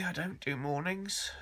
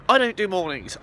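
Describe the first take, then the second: First: Much softer, just-woken mumble on "I don't do mornings"; groggy morning voice. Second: Said in the usual way. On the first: Real, not acted. Just woken, soft groggy "I don't do mornings". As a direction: drag out "I don't do mornings" half asleep.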